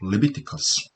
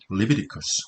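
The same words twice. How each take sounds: First: The t sound is fully and clearly pronounced. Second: The t sound is weakened and soft. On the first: "t가 그대로 살아있으면요" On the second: "t가 약화되면"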